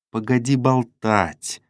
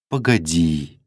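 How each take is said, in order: First: Slow, gloomy interruption; sullen. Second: Low-key, composed interruption; calm. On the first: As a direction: cut her off sullenly, dragging the words. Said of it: "угрюмо остановил её Фома". (угрюмо, медленно) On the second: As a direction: stop him calmly, without pushing. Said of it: "спокойно остановила его Саша". (спокойно, ровно) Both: A narrator's reading.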